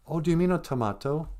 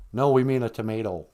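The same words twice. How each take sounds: First: "tomato" said tuh-MAH-toe; correcting pronunciation. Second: "tomato" said tuh-MAY-toe; Minnesotan pronunciation. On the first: Customer correcting the Minnesota server, "tomato" as tuh-MAH-toe. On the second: Minnesota server answering the correction, "tomato" as tuh-MAY-toe. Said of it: "like, Minnesota accent". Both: Acted.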